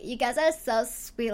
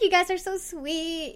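First: Said in the usual way. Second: Put-on high, gushing Valley Girl. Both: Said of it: "the Valley Girl inside me built up".

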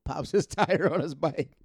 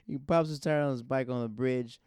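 First: Words broken by a laugh. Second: Said in the usual way. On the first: Real, not acted. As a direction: giggle through the line.

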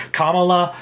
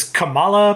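First: "Kamala" with the stress on the first syllable, KAH-ma-la; alternative pronunciation. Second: "Kamala" with the stress on the middle syllable, ka-MAH-la; habitual pronunciation. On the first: Host showing how "Kamala" is sometimes said, stressed on the first syllable, KAH-ma-la. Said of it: "sometimes it's pronounced Kamala". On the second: Host showing how he always said "Kamala", stressed on the middle syllable, ka-MAH-la. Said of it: "I always pronounced it as Kamala". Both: Shown as a demonstration.

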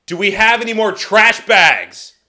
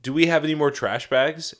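First: Loud, high mock yell; exasperated repeat, shouted for the hard of hearing; imitated angry-sounding holler. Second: Said in the usual way. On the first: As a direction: imitate her bellowing from the next room. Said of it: "She'll be like". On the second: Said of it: "she'll be like".

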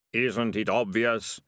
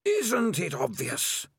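First: Slow, dazed echo of the voice; ratcatcher echoing. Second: Slow, eerie, high otherworldly voice; drawn out like wind through a cave. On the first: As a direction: repeat it as if your own thought. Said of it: "said Ratcatcher One". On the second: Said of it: "sound like a wind blowing". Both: Acted.

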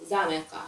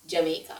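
First: "Jamaica" said with a Z start, za-MEH-ka; original name's pronunciation. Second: Said in the usual way. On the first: Shown as a demonstration. Telling co-host the original name, "Jamaica" as za-MEH-ka. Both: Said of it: "And then we call it".

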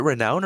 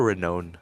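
First: "renown" rhyming with "down"; alternate pronunciation. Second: "renown" rhyming with "known"; alternate pronunciation. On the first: Player asks which pronunciation is right, "renown" as re-NOWN. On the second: Player asks which pronunciation is right, "renown" as re-NOHN. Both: Shown as a demonstration. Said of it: "Is it renown or renown?".

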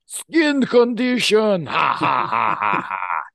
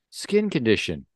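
First: Put-on huge, high, drawn-out Russian-accented cry into loud villain laughter; Russian villain outburst. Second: Put-on higher, louder Russian-accented suggestion. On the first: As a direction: throw it back derisively, roaring with Russian-villain ha-ha's. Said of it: "your Russian accent to sizzling oil". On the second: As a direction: offer it matter-of-factly in a raised Russian voice. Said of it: "Can you set your Russian accent".

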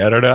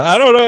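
First: Said in the usual way. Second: I don't know jumps way up and louder; high flustered squeal. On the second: Real, not acted. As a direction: squeak it out, embarrassed. Flustered repeat to co-host.

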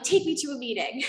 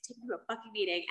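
First: Urgent demand. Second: Mock angry demand, softer. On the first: Retold or imitated. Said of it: "And so I'm like". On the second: Teen to her mom, softer angry grumble. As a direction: grumble it angrily under the breath. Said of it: "I'm angry and I'm mad".

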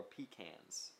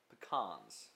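First: "pecans" said PEE-kanz; alternate pronunciation. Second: "pecans" said puh-KAHNZ; alternate pronunciation. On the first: Offering the other way to say the nut, "pecans" as PEE-kanz. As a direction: say "pecans" with a long "ee" and flat "a" as in cat. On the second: Reading out a list of nuts, "pecans" as puh-KAHNZ. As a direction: say "pecans" with a short first syllable and open "ah". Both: Shown as a demonstration. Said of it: "whatever you say".

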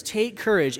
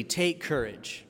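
First: "courage" pitched up over the din; raised proclamation. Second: Soft, slow and understated; calm reassurance. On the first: Jesus heard over crashing waves, raised proclamation. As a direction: lift "Take courage" higher and firmer. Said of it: "And yet they hear this". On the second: Jesus to the frightened disciples, calm and soft. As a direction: say it softly, as quiet encouragement. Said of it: "Jesus says immediately". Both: Retold or imitated.

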